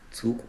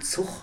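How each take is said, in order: First: The final g is a standard German plosive. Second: The final g is a Hannover-style fricative.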